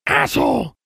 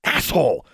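First: High squawk; a bird parroting a swear word; high, shrill-free bird squawk; squawking raven. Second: Said in the usual way. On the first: A narrator's reading.

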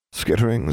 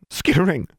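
First: Uneasy, hushed dread. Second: High, loud frightened cry; terrified cry. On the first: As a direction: say it with creeping fear. Frightened portrait repeats. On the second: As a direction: cry out in terror. Covers ears, terrified. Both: A narrator's reading.

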